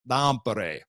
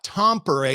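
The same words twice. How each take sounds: First: The T at the start is almost swallowed. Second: The T at the start is fully sounded. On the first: The speaker calls it right. "I almost have to swallow the T" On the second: The speaker calls it wrong. "it's not Tampere"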